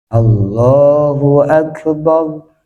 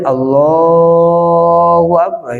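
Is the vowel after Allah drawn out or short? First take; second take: short; drawn out. First: The vowel is held for a short two beats. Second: The vowel is stretched well beyond two beats. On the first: The speaker calls it right. "Harus dua ketukan" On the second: The speaker calls it wrong. "Gak boleh"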